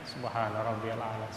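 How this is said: It is recited quickly like rote memorization.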